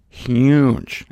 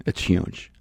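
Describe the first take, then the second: First: "huge" said full voice, stretched with a falling tune; emphatic. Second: "It's huge" breathed as a low whisper. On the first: Preacher stressing the end times to listeners, full-voiced "huge". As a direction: lean hard on the word "huge". Repeats huge, second time whispered. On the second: Preacher confiding to listeners, whispered "It's huge". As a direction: drop to a hushed whisper on "huge". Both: Acted.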